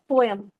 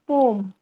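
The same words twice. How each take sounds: First: The word is said as two separate syllables. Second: The vowels merge into a single O sound. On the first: This is the older way of saying it. "previously we used to pronounce pro poem as poem" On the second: This is the current way of saying it. "now I have heard someone pronouncing it as poem"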